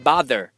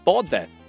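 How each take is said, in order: First: It is said with an American accent. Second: It is said with a British accent. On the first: "而美国人呢会说bother" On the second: "英国人呢会说bother"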